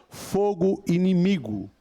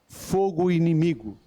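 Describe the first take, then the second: The two takes are said the same way.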